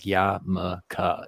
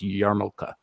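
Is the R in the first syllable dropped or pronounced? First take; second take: dropped; pronounced. First: The R in the first syllable is dropped. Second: The R in the first syllable is pronounced. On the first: The speaker calls it wrong. "they drop the R" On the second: The speaker calls it right. "It's it's yarmulke"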